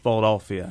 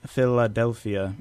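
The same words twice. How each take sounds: First: The L is swallowed in the back of the throat. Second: The L is made with the tongue at the teeth. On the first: "it's Philadelphia" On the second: "instead of Philadelphia"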